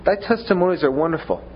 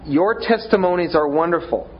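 First: Thy leaned on, falling tune; stress on thy. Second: Your leaned on and falling; stress on your. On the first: Preacher repeating the verse, Thy stressed. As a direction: open on a firm Thy and let it fall. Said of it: "repeats the verse". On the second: Preacher showing how to say Your with stress. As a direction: put the weight on Your, then let it fall. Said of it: "to say". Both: Shown as a demonstration.

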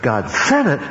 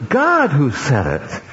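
First: "said" punched above "God" and "it"; stress on said. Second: "God" raised and drawn out as the key word; stress on God. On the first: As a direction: make "said" the key word. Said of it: "not because God said it". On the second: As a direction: punch "God", let "who said it" follow. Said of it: "put the emphasis upon God". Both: Shown as a demonstration.

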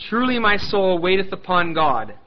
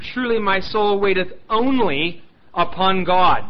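First: Said in the usual way. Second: "only" leaned on hard and drawn out, whole line slow; slow down and punch "only" before "upon God"; preacher stressing "only" to show the Hebrew. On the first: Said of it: "But in the Hebrew, it would be more like rendered". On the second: Shown as a demonstration. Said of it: "It's an emphatic nature there".

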